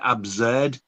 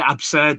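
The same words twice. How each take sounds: First: The middle consonant is a buzzing Z sound. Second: The middle consonant is a hissing S sound. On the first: The speaker calls it wrong. "I keep pronouncing it with a Z" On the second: The speaker calls it right. "I'm trying to say absurd now because to me it doesn't sound right"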